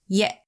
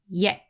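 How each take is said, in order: First: The word is cut off by a glottal stop. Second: The same.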